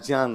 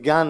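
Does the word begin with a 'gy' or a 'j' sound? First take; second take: j; gy. First: It is said with a 'j' plus nasal sound. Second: It is said with the everyday 'gyan' sound. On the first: The speaker calls it right. "ज्ञान होता है" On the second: The speaker calls it wrong. "वास्तव में ये ज्ञान नहीं होता है"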